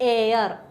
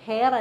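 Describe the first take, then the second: First: The word starts with a vowel sound. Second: The word starts with an h sound. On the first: The speaker calls it right. "എ sound ആണ്, അതുകൊണ്ട് എച്ച് അവിടെ silent" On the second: The speaker calls it wrong. "ഹെയർ അല്ല"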